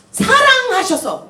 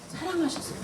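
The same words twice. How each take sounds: First: 사랑하셔서 drawn out slowly, each syllable leaned on; slow, stressed 사랑하셔서; slow emphasis. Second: 사랑하셔서 repeated much softer, falling away; quiet answering 사랑하셔서; soft echo. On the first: Preacher stresses God's love to students, slowly. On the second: Preacher answers own question to students, softly. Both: Shown as a demonstration. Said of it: "뭐 하셔서?".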